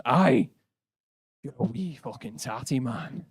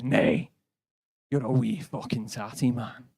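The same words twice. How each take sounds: First: Put-on thick Glaswegian accent, rough and aggressive. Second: Put-on thick Glaswegian accent, insistent. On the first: Angry Glaswegian bloke insulting the visitors, thick Glaswegian accent. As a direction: bark it like an angry Glasgow pub bloke. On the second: The Glasgow bloke insisting on the insult, thick Glaswegian accent.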